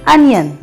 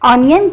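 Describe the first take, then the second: First: The first vowel sounds like 'a'. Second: The first vowel sounds like 'o'. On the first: The speaker calls it right. "ओ की आवाज़ नहीं निकालेंगे बल्कि ए की आवाज़ निकालेंगे" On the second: The speaker calls it wrong. "अगर हम ऑनियन कहेंगे तो वह गलत हो जाएगा"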